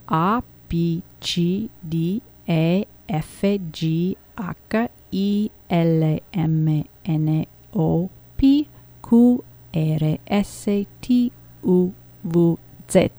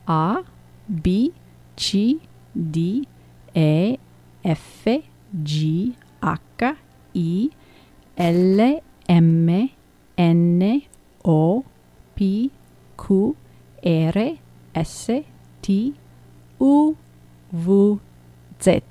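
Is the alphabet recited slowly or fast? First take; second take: fast; slowly. First: The letters are recited fast. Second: The letters are recited slowly.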